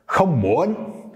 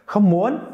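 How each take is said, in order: First: "không muốn" started lower, slowly dipping then rising; lower-start soft sắc. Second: "không muốn" started high and louder, rising at the end; higher-start soft sắc. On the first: Teacher contrasting where the tone starts, slow low-start rise. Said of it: "It really depends, I think, on where you start". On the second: Teacher contrasting two versions, high-pitched rising "không muốn". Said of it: "So you can hear the difference between". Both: Shown as a demonstration.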